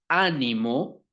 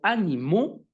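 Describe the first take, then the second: First: The stress is on the first syllable. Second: The stress is on the last syllable. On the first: "tilde en la A" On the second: "con tilde en la O"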